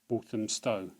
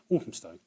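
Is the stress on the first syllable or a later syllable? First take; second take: later syllable; first syllable. First: The stress is on a later syllable. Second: The stress is on the first syllable. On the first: The speaker calls it wrong. "put the emphasis in the wrong place" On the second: The speaker calls it right. "Stress at the beginning"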